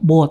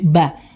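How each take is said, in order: First: The vowel sounds dark and rounded. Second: The vowel sounds light and open. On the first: The speaker calls it wrong. "jangan sampai dibaca bo" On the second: The speaker calls it right. "tapi ba"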